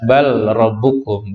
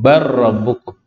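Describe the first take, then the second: First: The l is said separately before the r. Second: The l merges fully into a doubled r. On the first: The speaker calls it wrong. "jadi tidak dibaca bal rabbukum" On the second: The speaker calls it right. "Lam masuk ke dalam huruf ra"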